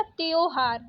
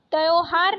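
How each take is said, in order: First: Said in the usual way. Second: त्योहार said "tyau-har", open au; wrong vowel. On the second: Shown as a demonstration. Teacher rejecting a spelling, त्योहार with au vowel. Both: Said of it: "त्योहार नहीं होता".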